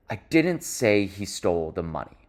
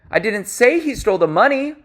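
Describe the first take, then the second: First: Whole sentence kept low, falling at the end; lower, softer, settled statement. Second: Whole sentence pitched high, lifting at the end; high rising tone. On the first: Coach showing the contrasting tone across sentences, low falling delivery. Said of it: "very different than if I say". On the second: Coach showing tonal variation across sentences, high-pitched delivery. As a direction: say it all high up, as if protesting. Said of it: "this occurs across sentences as well". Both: Shown as a demonstration.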